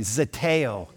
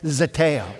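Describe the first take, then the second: First: The word is said with ordinary force. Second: The word is said with added force. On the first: "say it with me" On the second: "with just a little more strength"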